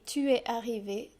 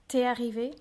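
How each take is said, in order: First: The vowel of tu is fully pronounced. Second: The vowel of tu is dropped.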